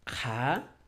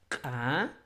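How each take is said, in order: First: The consonant has a breathy puff of friction. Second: The consonant has a sharp glottal catch. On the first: "el modo aspirado, como su nombre indica, un poco de fricción" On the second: "el modo glotalizado"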